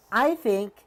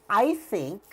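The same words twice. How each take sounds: The two takes are said the same way.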